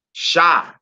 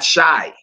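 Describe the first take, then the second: First: Shai said as SHA, open ah, higher pitch; correct pronunciation. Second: Shai rhyming with eye; wrong pronunciation. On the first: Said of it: "It should be Yahweh Shai, not Shai". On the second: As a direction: say Shai with a long I glide. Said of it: "not Shai". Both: Shown as a demonstration.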